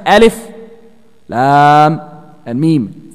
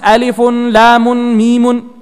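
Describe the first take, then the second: First: Each letter name ends bare, said separately. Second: Each letter name ends with an added -un. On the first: The speaker calls it right. "you have to recite" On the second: The speaker calls it wrong. "You do not pronounce this"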